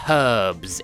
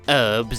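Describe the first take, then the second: First: The word starts with a sounded h. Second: The word starts without an h sound. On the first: The speaker calls it right. "With an H, it is pronounced herbs" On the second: The speaker calls it wrong. "It is not herbs"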